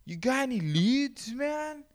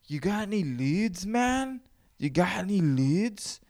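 First: Very high squeaky voice; Cheech and Chong chick. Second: High squeaky stoner voice, much higher; Cheech and Chong chick. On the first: Second try at the Cheech and Chong woman asking for leads. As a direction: push the pitch way up, stoned. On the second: Mimicking the woman from Cheech and Chong asking about leads. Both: Retold or imitated. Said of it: "the voice of that fucking, the chick from Cheech and Chong".

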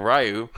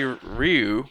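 First: "Ryu" said the other way; alternative pronunciation of Ryu. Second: "Ryu" said the first way; first pronunciation of Ryu. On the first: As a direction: offer "Ryu" as the second reading. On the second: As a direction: offer "Ryu" as one reading of the name. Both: Shown as a demonstration. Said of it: "or Ryu".

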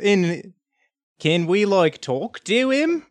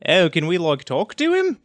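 First: Put-on halting retry at a Boston accent, "talk to him" slow and rising high; badly faked Boston accent, stretched into a high question. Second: Put-on first stab at a Boston accent, lifted on "talk to him"; badly faked Boston accent, falling at the end. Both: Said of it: "bad at speaking in a foreign accent".

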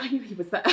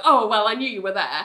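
First: Soft, hushed mock aside; aside to a colleague. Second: Casual, everyday delivery; shrugging it off. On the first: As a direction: confide it under your breath, amused. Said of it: "says to Elaine". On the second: Retold or imitated. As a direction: lightly play it cool. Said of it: "trying to shrug it off".

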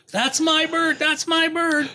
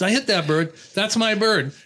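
First: Very high mock yelling; imitated yell. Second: Higher-pitched, lightly winded retelling; imitated breathlessness. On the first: Hunter claiming the downed pheasant, imitated yelling. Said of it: "so that guy's yelling". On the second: Hunter running up to claim his bird, lightly imitated breathlessness. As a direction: mimic someone a little out of breath. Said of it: "he's kinda out of breath".

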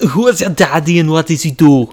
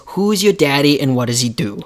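First: Put-on louder, higher Austrian accent; hammed-up Austrian strongman; Arnold impression. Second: Put-on half-hearted Austrian accent; failed Arnold impression. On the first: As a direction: ham up a thick Austrian accent. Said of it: "You didn't sound anything like Arnold". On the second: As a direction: attempt an Austrian accent and miss. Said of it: "Why do you sound like Jean-Claude Van Damme".

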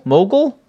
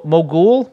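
First: "Mogul?" with a short, reduced second syllable, higher; trying another pronunciation. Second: "mogul?" with a full "ool" in the second syllable; trying a pronunciation. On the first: Host unsure how to say a word, testing a reduced-vowel pronunciation. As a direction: ask "Mogul?" with the ending swallowed to "gl". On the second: Host unsure how to say a word, testing a full-vowel pronunciation. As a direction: ask "mogul?" ending like "ghoul". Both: Shown as a demonstration. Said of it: "am I saying mogul right".

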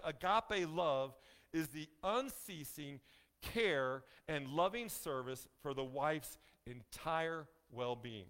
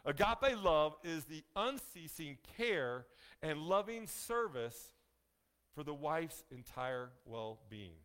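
First: Slow reading. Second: Agape love said slowly, each word stressed; slow, emphatic repeat. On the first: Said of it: "Let me say that again". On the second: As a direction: lean on agape and loving, slow and deliberate. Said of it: "Let me say that again, guys. We gotta catch this". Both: Shown as a demonstration.

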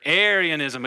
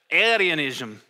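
First: Said in the usual way. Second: Arianism in a half-hearted Irish accent. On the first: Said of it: "Can you say Arianism?". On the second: Shown as a demonstration. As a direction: try Arianism with a light Irish lilt, failing playfully. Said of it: "Again, Irish".

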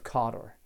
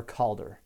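First: "Cawdor", first syllable like "caw"; "Cawdor" as CAW-dor; first pronunciation variant. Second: "Calder" as CALL-der; "Calder", ending in a light "-der"; alternative pronunciation. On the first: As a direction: say "Cawdor" with an aw vowel. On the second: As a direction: say "Calder" with the L sounded. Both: Shown as a demonstration. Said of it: "however you want to pronounce that".

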